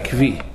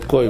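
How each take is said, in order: First: The word is said with a v sound. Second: The word is said with an o vowel. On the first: The speaker calls it wrong. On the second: This is the correct way of saying it. The speaker calls it right. "mas na verdade o correto é koi"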